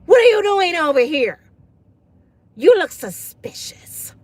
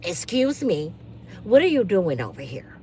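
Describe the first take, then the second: First: Louder, accusing, slowing on suspicious; mock a Karen calling someone out. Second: Soft, lower, prim and suspicious; a hint of a nosy neighbour in her robe; prim Karen voice.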